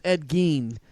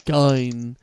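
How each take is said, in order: First: "Gein" said as GEEN, long ee; "Gein" rhymes with "seen"; correct pronunciation. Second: "Gein" said as GINE, rhyming with fine; mispronounced "Gein" with an eye sound; wrong pronunciation. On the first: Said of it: "It was Ed Gein". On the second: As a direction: say "Gein" like "guy-n", long i. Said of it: "his name wasn't Ed". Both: Shown as a demonstration.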